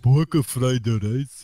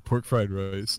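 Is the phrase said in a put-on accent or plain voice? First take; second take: put-on accent; plain voice. First: It is said in a put-on foreign accent. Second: It is said in the speaker's ordinary accent. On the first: The speaker calls it wrong. "not pork fried rice" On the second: The speaker calls it right. "But I say pork fried rice"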